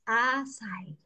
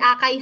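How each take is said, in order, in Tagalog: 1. Binibigkas ang salita bilang ah-sah-ee. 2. Binibigkas ang salita bilang ah-kay. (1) "paano daw i-pronounce?" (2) "Hindi akay ha"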